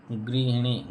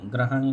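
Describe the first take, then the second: First: गृहिणी with gri and hi; teacher modelling गृहिणी, short i after ह; correct form गृहिणी. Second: ग्रहणी with a in place of i; teacher showing faulty ग्रहणी, अ vowels; wrong form ग्रहणी. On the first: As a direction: say गृहिणी with i vowels throughout. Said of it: "यही शुद्ध है". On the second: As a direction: say ग्रहणी, gra-ha-ni. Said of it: "नहीं करे". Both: Shown as a demonstration.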